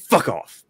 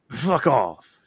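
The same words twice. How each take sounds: First: The anger sounds real and sincere. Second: The anger sounds fake and childishly exaggerated. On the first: The speaker is truly angry. "if you're actually angry, you go" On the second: The speaker is only pretending to be angry. "But if you, like, pretend, you go"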